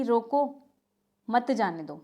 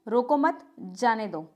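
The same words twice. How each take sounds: First: रोको alone, long pause, then मत जाने दो; pause after रोको. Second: Slow, रोको मत run together, then जाने दो; pause after मत. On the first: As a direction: break right after रोको, keeping मत with जाने दो. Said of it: "एक में तो ये है". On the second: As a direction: break after मत, not after रोको. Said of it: "और दूसरे में क्या है?". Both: Shown as a demonstration.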